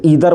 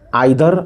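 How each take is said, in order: First: It is said the American way. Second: It is said the British way. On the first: "American English में हम लोग आइदर means ईदर बोलते हैं" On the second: "British जो हम लोगों की अंग्रेजी है उसमें हम लोग बोलते हैं मीन्स आइदर"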